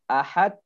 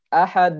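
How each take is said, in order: First: The final d is held without release. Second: The word is drawn out and lengthened. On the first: "Ahad ditahan. Tidak boleh" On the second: "tidak boleh dipanjangkan"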